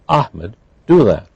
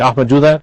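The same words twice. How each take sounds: First: There is a pause after the name. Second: The name runs into the rest without pause. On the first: The speaker calls it right. "We put a pause between the address" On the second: The speaker calls it wrong. "So I wouldn't say"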